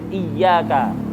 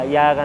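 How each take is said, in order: First: The y sound is held long and doubled. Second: The y sound is short and single. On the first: It means only to You. The speaker calls it right. "Kalau ditasdid iyyaka" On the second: It means sunlight. The speaker calls it wrong. "tidak ada tasdidnya"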